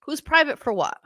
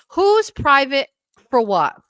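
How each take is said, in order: First: High but less forceful question; incredulous repeat. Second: Loud, high, drawn-out challenge; incredulous. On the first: Pressing a viewer on the comment, mildly incredulous. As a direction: press the question in puzzled disbelief. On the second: Questioning a viewer's comment, loudly incredulous. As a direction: stretch the question out in disbelief. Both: Real, not acted.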